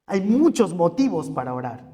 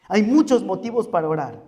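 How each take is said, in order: Both takes have the same delivery.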